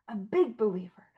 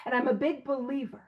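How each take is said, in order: First: Breathy whispered echo of the phrase; whispered repeat. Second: Said in the usual way. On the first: Shown as a demonstration.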